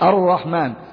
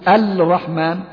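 First: The 'l' is silent, merged into a doubled 'r'. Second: The 'l' of the article is clearly pronounced. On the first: The speaker calls it right. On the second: The speaker calls it wrong.

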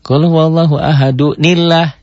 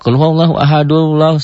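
First: An n sound joins ahadu to Allah as nillah. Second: Ahadu runs straight into Allah with no n. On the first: The speaker calls it right. "Tuh, nillah. Dibantu nun iwan nanti" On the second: The speaker calls it wrong. "Enggak kul wallahu ahadullah. Enggak"

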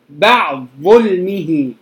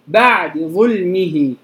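First: The vowel is dropped and the two sounds merge. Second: The vowel before the second word is partly hidden. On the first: "الإدغام الكامل الكبير" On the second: "على اختيار الإمام الشاطبي اللي هو الإخفاء"

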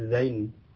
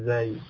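First: The word ends with an n sound. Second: The word ends without an n sound. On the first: This is the form commonly known locally. The speaker calls it wrong. "mungkin dengan nun ya" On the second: This is the original Arabic form. The speaker calls it right.

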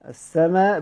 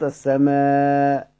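First: The final long vowel is held only briefly. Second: The final long vowel is held a medium time. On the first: "السماء بالكسر" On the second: "بالمتوسط"

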